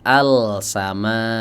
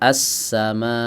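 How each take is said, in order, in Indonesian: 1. Bunyi L diucapkan dengan jelas. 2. Huruf L menyatu menjadi bunyi s yang ganda. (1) "tidak dibaca" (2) "lafadz as-sama"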